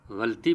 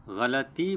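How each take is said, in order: First: غلطی squeezed to "ghalti", no vowel after ghain's l; wrong pronunciation. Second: غلطی as "gha-la-ti", zabar on ghain and laam; correct pronunciation. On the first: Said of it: "یہ بھی غلط ہے". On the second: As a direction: say غلطی fully, "ghalati". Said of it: "غلطی بولنا چاہیے". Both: Shown as a demonstration.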